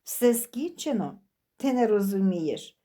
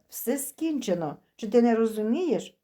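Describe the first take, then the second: First: Mocking mimicry. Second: Said in the usual way. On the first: A narrator's reading. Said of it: "передражнила Христина Діму".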